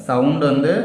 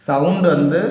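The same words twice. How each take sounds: No difference in how they are said.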